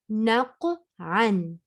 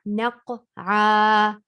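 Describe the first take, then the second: First: The word ends with an n sound. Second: The word ends with an a vowel. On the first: The reader continues past the word. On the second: The reader stops on the word at a verse end.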